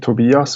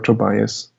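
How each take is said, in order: First: The name is said with standard German pronunciation. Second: The name is said with English pronunciation. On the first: "which is the the German pronunciation" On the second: "which is what people usually uh, say in English"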